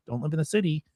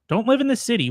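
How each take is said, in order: First: Said in the usual way. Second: Preachy. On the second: Acted. Mock advice to city dwellers.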